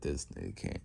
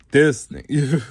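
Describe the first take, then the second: First: Low, very soft retold aside; muted disbelief. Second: High, loud retold exclamation; mock exasperated outburst. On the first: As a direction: say it low and quiet, as a mock reaction. Retold Aizawa reacting in disbelief. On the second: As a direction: blurt it out loudly in mock disbelief. Same retold reaction, suddenly blurted.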